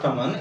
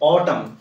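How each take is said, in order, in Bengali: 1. শব্দটি উচ্চারিত n দিয়ে শেষ হয়। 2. শব্দটি m দিয়ে শেষ হয়, n নীরব। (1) "it is not ऑटमन" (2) "it is ऑटम"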